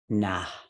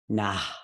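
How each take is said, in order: First: The word ends with an audible breathy puff. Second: The same.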